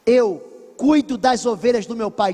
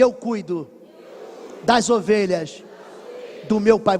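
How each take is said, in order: First: Said in the usual way. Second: Chunked slowly for the church to repeat; stress with pauses. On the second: Shown as a demonstration. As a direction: lay it out in three slow beats: "Eu cuido", "das ovelhas", "do meu pai".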